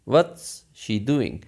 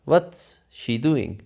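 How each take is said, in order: First: What and is are joined into one syllable. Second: The same.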